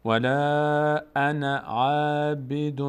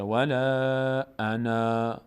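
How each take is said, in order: First: Slow chant, انا kept short running into عابد; drawn-out ولا, then short "ana" linked to عابد; continuous recitation. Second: Slow recitation, final alef of انا sounded long; stopping on انا. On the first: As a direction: recite straight on, no long alef ending in انا. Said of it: "اما اگه ادامه دادم". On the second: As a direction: recite ولا انا and stop on a drawn-out final "aa". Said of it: "اگر من اینجا توقف بکنم". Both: Shown as a demonstration.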